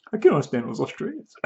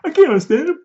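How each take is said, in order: First: Lightly mocking a confused listener, softer; a half-hearted imitation of someone lost by the accent; mocking the preacher. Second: Mock exasperation. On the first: Preacher mimics a listener puzzled by the accent, softer. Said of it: "Australian accent". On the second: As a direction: throw up your hands, higher. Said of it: "What's he saying?".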